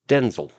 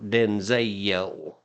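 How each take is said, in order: First: The second-syllable vowel is dropped, almost silent. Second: The second-syllable vowel is fully pronounced. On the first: The speaker calls it right. "It's a silent E" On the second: The speaker calls it wrong. "It's not Denzel"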